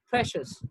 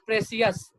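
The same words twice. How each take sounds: First: The stress is on the first syllable. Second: The stress is on the last syllable. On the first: The speaker calls it right. "it's precious" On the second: The speaker calls it wrong. "It's not precious"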